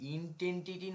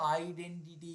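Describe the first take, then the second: First: The word begins with an 'int' sound. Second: The word begins with an 'id' sound. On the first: The speaker calls it wrong. "ইনটেন্টিটি নয় বাবা" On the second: The speaker calls it right.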